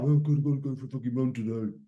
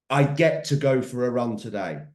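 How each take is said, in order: First: Moaning about the run, sinking quiet at the end; grudging, fading complaint; a runner dreading his run, grumbling; reluctant grumble. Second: Said in the usual way. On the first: Pretend. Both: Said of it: "You can wake up and you can think".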